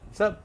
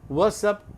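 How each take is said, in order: First: It is clipped to one short syllable. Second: Both words are said fully, in two syllables.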